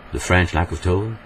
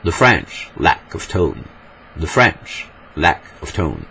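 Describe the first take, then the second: First: English with a flat French accent, little stress; French-accented English, evenly stressed. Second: Slow, theatrical English accent; hammed-up English accent, drawn out with falling stresses; overacted English accent. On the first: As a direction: say it as a French speaker would, in even tone. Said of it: "En français, on dirait". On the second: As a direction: exaggerate the English accent, stretching each stressed word. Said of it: "En anglais surjoué, on dirait". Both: Shown as a demonstration.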